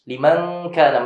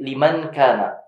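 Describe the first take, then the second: First: The 'n' is hidden into a nasal sound. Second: The 'n' is pronounced clearly and fully. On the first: The speaker calls it right. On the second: The speaker calls it wrong.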